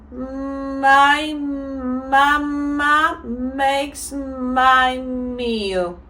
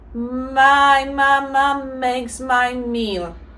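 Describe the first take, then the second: First: The sentence is said at a fairly fast pace. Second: The sentence is said at a faster pace. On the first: "now we're gonna say it a bit faster" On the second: "so I go faster"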